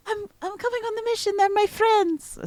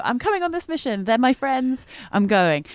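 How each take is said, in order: First: Much higher put-on accent that is not Mal's usual one; wrong accent. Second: Put-on higher, eager character voice in Mal's own accent, quick at the start. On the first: Player quoting Mal to the group, in a higher wrong accent. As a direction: slip into the wrong accent for Mal, eager and quick. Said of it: "not in that accent". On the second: Player redoing Mal's plea in her proper character accent. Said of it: "that's not the accent I do".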